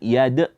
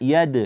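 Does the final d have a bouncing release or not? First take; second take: not bouncing; bouncing. First: The final d is held without a bounce. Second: The final d is released with a bounce. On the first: The speaker calls it wrong. "jangan yad" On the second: The speaker calls it right. "Yad dibaca yad"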